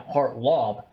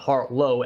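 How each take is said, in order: First: The name ends with a 'lob' sound. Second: The name ends with a 'low' sound. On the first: The speaker calls it right. "I meant Hartlaub" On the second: The speaker calls it wrong. "not Hartlow"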